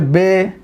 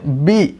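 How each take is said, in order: First: The vowel sounds like 'ay'. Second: The vowel sounds like 'ee'. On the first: The speaker calls it wrong. "इस तरह मजहूल नहीं पढ़ा जाएगा" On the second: The speaker calls it right. "तो मारूफ पढ़ना है"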